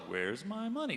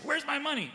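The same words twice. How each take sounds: First: It is said slowly. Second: It is said fast.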